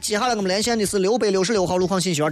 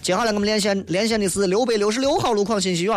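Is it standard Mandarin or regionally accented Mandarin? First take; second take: standard; regional. First: It is said in standard Mandarin. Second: It is said with a rising regional accent.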